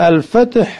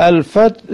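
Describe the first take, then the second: The two takes are said the same way.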